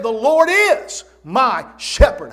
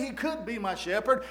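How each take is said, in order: First: Much louder, slow, with "is" hit hard; emphatic "is". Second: Softer, with "could" stressed and a rising end; tentative wording. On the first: Preacher proclaims what David did say, emphatic "is". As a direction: proclaim it loudly, punching and stretching "is". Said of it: "it's emphatic". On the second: Preacher quotes what David didn't say, tentative. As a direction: say it softly, leaning on "could", left hanging upward. Rejected wording against the emphatic one. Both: Retold or imitated.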